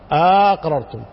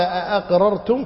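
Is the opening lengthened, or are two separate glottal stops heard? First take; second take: lengthened; two stops. First: The first vowel is lengthened, the second stop slurred. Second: Two separate glottal stops are clearly pronounced. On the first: "بمد الهمزة الأولى واختلاس الثانية" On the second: "فيها قراءتان المد والهمزتين"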